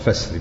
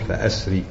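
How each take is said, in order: First: The glottal stop is dropped, joining straight into 'sri'. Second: A glottal stop is pronounced before the vowel 'a'. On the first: "بالوصل فسري" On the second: "بالقطع تقول فأسري"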